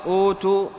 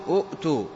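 First: أوتوا with a long smooth first "oo"; long-vowel أوتوا, "ootoo", no catch; madd vowel. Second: أؤتوا with a catch after short "u"; أؤتوا with a clear glottal stop; original two-hamza form. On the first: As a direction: draw out the opening of أوتوا. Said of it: "أبدلت الهمزة الثانية الساكنة واوا". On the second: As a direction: break أؤتوا at the hamza, "u'-too". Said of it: "وأصل أوتوا أؤتوا". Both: Shown as a demonstration.

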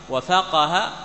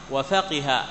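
First: وفقه said wa-faqaha, open a on the qaf, rising; a-vowel reading. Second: وفقه said wa-faqiha, i on the qaf, falling; i-vowel reading. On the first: Teacher contrasts readings of فقه, the fatha one. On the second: Teacher contrasts readings of فقه, the kasra one. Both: Shown as a demonstration. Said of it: "بضم الكاف وكسرها وفتحها".

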